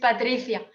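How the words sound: The name is said with Spanish pronunciation. "But in Spain it's Patricia"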